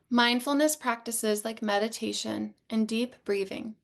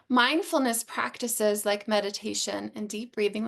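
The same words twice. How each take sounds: First: The voice sounds calmer and more relaxed. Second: The voice sounds tense and less settled.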